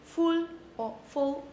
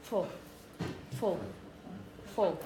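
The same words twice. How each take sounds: First: "full" with a clear, rounded U vowel; wrong suffix "full", U fully sounded; overfull vowel. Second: "full" weak and short, vowel reduced to schwa; unstressed suffix "full", barely any vowel; poor schwa. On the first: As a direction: say "full" as a stressed separate word, vowel unreduced. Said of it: "So it's not". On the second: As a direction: say "full" low and soft, totally unstressed. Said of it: "with a poor schwa". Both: Shown as a demonstration.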